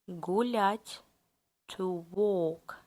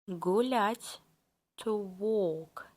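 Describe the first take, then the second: The two takes are said the same way.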